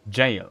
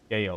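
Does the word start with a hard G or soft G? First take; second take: soft G; hard G. First: The word begins with a soft G sound. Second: The word begins with a hard G sound. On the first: The speaker calls it right. "it's even a soft G" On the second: The speaker calls it wrong. "I think it's Gale or something"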